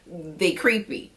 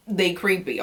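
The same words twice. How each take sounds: First: Drawn-out emphatic they creepy, rising; slow emphatic. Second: Said in the usual way. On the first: Shown as a demonstration. Warning her viewers about the men, slow emphatic They creepy. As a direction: stretch out They creepy slowly with a rising end. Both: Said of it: "These men's are creepy, okay?".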